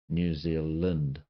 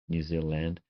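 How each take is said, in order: First: The vowel in 'land' sounds like 'i'. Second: The vowel in 'land' sounds like 'a'. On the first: "The land comes out as Lind" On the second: "I try to I try to say land"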